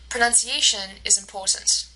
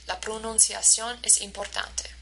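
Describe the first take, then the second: First: "pronunciation is important" with peaks on A and POR; stress-timed English rhythm. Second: "La pronunciación es importante" softer, on an even beat; all syllables equal in "La pronunciación es importante"; syllable-timed Spanish rhythm. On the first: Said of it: "A is stressed and po is stressed". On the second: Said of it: "every single syllable is stressed in the same way". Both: Shown as a demonstration.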